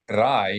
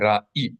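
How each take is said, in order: First: The word has no glottal stop. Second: The word has a glottal stop. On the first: "you were not just saying rai" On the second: "you were saying ra'i"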